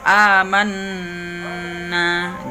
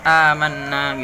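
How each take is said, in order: First: The double n is held with nasal resonance. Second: The double n is short without nasal resonance. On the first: The speaker calls it right. "harus unnah" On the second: The speaker calls it wrong. "jangan amanna gitu"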